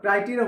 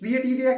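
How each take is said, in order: First: The first syllable sounds like 'cry'. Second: The first syllable sounds like 'cree'. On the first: The speaker calls it right. "ক্রাইটেরিয়া হলো কেন" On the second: The speaker calls it wrong. "ক্রিয়েটেরিয়া কেন হলো না"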